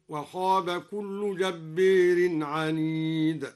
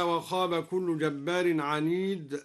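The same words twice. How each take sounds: First: جبار slowly recited with the final a leaned toward e, jabbeer; slow tajweed recitation bending the alif of جبار toward e; imala on jabbar. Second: Said in the usual way. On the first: Shown as a demonstration. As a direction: chant جبار with imala, a tilted to e. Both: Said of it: "أمال جبار هكذا".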